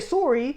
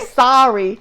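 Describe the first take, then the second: First: Sorry is said with a Canadian accent. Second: Sorry is said with an American accent. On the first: "You guys say sorry" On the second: "Americans say sorry"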